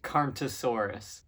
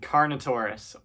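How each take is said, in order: First: The word ends in '-ntosaurus'. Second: The word ends in '-notaurus'. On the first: The speaker calls it wrong. "or as I used to pronounce it" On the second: The speaker calls it right. "first one"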